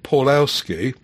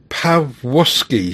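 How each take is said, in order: First: The letter L is said as a plain L. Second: The letter L is said as a W sound. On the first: The speaker calls it wrong. "which I've always said" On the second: The speaker calls it right. "is actually pronounced Pawłowski, he says, where W is V and L is W"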